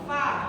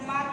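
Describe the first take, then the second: First: It begins with an f sound, teeth on lip. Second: It begins with a p sound, lips closed. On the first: The speaker calls it right. "Gigi seri atas nempel di bibir bawah" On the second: The speaker calls it wrong. "Bukan pa"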